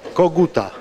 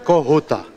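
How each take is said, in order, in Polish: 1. Ten wyraz wymawia się z twardym g. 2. Ten wyraz wymawia się z dźwiękiem h. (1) "dziewczynka mówiła koguta" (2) "a powinno być kohuta gwarowo"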